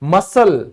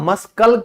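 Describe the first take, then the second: First: The word is said without a k sound. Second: The word is said with a k sound. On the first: The speaker calls it right. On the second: The speaker calls it wrong. "मस्कल क्यों नहीं बोलते"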